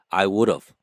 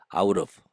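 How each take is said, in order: First: Every word is said fully and clearly. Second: The three words merge into one short syllable group.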